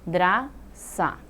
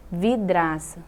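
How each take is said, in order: First: "Vidraça" as vi, dra, ça with pauses; split into syllables. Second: Said in the usual way. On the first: Shown as a demonstration. Teacher counting three syllables, "Vidraça" piece by piece. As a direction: slowly separate all three syllables of "Vidraça". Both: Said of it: "também é três sílabas".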